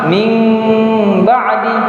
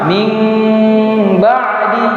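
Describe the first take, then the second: First: The m sound is nasal and concealed, blurred. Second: The m sound is nasal and concealed, blurred.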